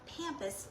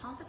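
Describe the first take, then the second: First: The first syllable sounds like 'Pam'. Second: The first syllable does not sound like 'Pam'. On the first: The speaker calls it right. "it's pronounced pampas, like Pam, P A M" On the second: The speaker calls it wrong. "they all like want to be fancy and try to call it pampas grass. It's not that"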